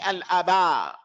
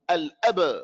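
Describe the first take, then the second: First: A vowel sound is added after the b. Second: The b ends the word with no vowel after. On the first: The speaker calls it wrong. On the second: The speaker calls it right.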